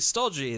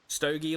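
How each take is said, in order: First: It sounds like the word meaning heavy, dull. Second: It sounds like the word for a cigar. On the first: The speaker calls it right. "It's actually stodgy" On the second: The speaker calls it wrong. "Stogie, like the cigar"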